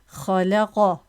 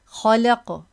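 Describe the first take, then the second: First: The final qaf is followed by a short 'a' vowel. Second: The final qaf bounces without any following vowel. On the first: The speaker calls it wrong. "you can't say khalaqa. No" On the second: The speaker calls it right. "you won't say this with a fatha"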